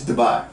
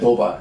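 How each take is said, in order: First: It is said with an English pronunciation. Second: It is said with a Japanese katakana pronunciation. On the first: "In English, Dubai" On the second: "日本語で Dubai"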